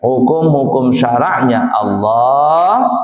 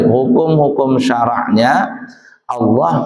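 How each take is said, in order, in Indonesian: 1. Jedanya ada sesudah 'Allah'. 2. Jedanya ada sebelum 'Allah'. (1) "Begitu komanya" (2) "kamu bacanya gimana tadi?"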